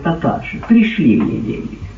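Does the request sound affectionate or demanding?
affectionate. The request sounds warm and affectionate. The son is asking lovingly for help. The speaker calls it right. "Ты не так прочел?"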